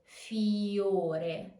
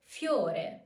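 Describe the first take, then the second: First: Fiore with I drawn out as its own syllable; wrong fiore, full I. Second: Fiore with I glided into O; correct fiore, Y glide. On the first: Teacher showing learners the wrong fiore with full I. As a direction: split the I from the O in fiore. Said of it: "Not fiore, but fiore". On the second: Teacher showing learners correct fiore with Y glide. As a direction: say fiore with I as a quick Y. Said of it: "but more like a Y". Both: Shown as a demonstration.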